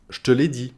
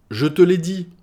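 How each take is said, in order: First: "je te" squeezed into "ch'te"; swallowed e. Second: "je te l'ai dit" with je and te in full; every e sounded. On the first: Teacher showing spoken French, "je te" said "ch'te". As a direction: say "je te l'ai dit" as "ch'te l'ai dit". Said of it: "on va le manger le e". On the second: Teacher giving the full form, "je te l'ai dit" with each e kept. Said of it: "beaucoup trop long à prononcer". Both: Shown as a demonstration.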